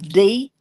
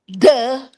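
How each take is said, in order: First: The letter is said by its name, dee. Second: The letter is said as its sound, duh. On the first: The speaker calls it wrong. "So one time I was saying D" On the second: The speaker calls it right. "He sounded it out"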